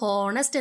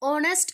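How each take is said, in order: First: The word starts with an h sound. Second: The word starts with a vowel sound. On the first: The speaker calls it wrong. "ഹോണസ്റ്റ് എന്ന് വായിക്കാൻ പാടില്ല" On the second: The speaker calls it right. "ഓണസ്റ്റ് എന്നാണ് വായിക്കുക"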